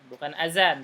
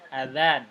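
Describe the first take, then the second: First: The middle consonant is a plain z sound. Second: The middle consonant is a soft th-like sound. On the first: The speaker calls it wrong. "dan bukan azan" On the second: The speaker calls it right. "tapi za, za"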